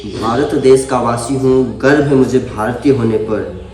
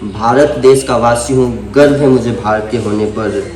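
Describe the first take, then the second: No difference in how they are said.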